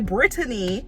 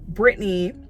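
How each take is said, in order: First: The name is said with three syllables. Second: The name is said with two syllables. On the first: This is the form the family actually uses. "or should I say Brittany, because that's actually what my parents know me" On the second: This is the simplified form most people know. "I just simplify it to Brittany"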